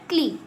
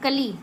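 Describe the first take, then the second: First: The k runs straight into l, no vowel. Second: A full vowel is sounded between k and l. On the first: The speaker calls it right. "लेकिन ये बोल रहा है क्ली" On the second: The speaker calls it wrong. "ये नहीं क अ ली कली"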